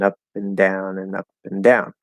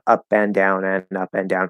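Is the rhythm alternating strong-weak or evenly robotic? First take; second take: alternating; evenly robotic. First: Syllables alternate between louder-longer and quieter-shorter. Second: Every syllable has the same length and loudness. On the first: The speaker calls it right. "notice I'm saying ... exactly like that" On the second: The speaker calls it wrong. "It's not ... You sound like a robot"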